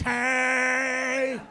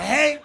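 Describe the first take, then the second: First: "Hey!" drawn out long and loud, like four Ys; stretched hey. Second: "Hey." clipped short, one Y, louder and higher; short proper hey. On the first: Match guy texting with four Ys, long drawn-out "Hey!". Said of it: "But with, like, four Ys". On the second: Correcting the slow match's texting, short proper "Hey.". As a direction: say "Hey." short and crisp, capital H. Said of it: "Hey, one Y, capital H". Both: Retold or imitated.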